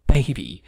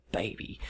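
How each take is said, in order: First: Put-on loud falling hype-man "baby."; hype shout. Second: Put-on "baby." breathed out softly; whispered. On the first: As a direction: belt "baby." out like an announcer. Announcing the game. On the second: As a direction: whisper "baby." like a hushed aside. Same word repeated softly.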